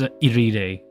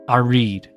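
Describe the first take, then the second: First: The name is read the Japanese way. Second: The name is read the English way. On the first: This is how the speaker says it. "I just pronounce it as Iride because I I read this like it's Japanese" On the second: This is how some other people say it. "Some people pronounce it as"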